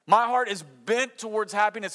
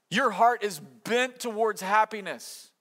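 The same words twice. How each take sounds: First: My punched, louder; loud stress on My. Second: Heart leaned on, slow; slow stress on heart. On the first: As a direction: hit the word My hard. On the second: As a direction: press the word heart. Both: Acted. Paired refrain, your vs my.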